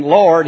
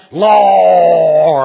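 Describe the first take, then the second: First: Said in the usual way. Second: Hammed-up preachy cry on "Lord"; preacher's wailing Lord. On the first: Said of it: "He's not just saying". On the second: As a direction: howl "Lord" like a revival preacher. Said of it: "making all kinds of funny sounds".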